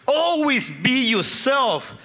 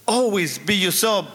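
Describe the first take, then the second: First: Higher, slow heartfelt advice; earnest advice. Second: Said in the usual way. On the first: Retold or imitated. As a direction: lay it down slowly, meaning every word. Father's heartfelt advice to son.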